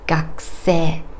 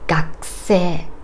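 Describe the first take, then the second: First: The u after the k is devoiced, barely heard. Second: The u after the k is devoiced, barely heard.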